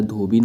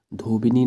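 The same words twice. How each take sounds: First: धोबिन ending on n; no vowel after the n of धोबिन; correct form. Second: धोबिनी with an extra final "ee"; धोबिनी ending on a vowel; wrong form. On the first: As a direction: say धोबिन in two syllables, "dho-bin". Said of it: "धोबिन होता है". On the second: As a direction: say धोबिनी in three syllables, "dho-bi-nee". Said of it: "नहीं होता है". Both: Shown as a demonstration.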